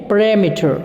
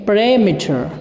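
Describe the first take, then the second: Both takes have the same delivery.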